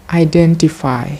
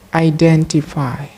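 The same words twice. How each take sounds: The two takes are said the same way.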